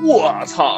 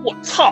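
First: It sounds very surprised and amazed. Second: It sounds angry, ready to fight.

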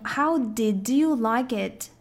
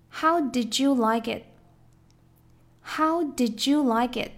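First: Each word is said separately without blending. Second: The d and y blend into a j sound. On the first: The speaker calls it wrong. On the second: The speaker calls it right.

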